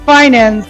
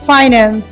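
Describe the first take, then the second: First: The first syllable sounds like 'fine'. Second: The first syllable sounds like 'fine'.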